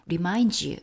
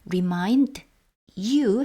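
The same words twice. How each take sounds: First: The final d merges with you into one sound. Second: The two words are said separately and clearly. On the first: "미다지 이렇게 발음이 되는 것처럼 remind you 이렇게도 발음이 됩니다" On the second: "remind you 해도 되지만"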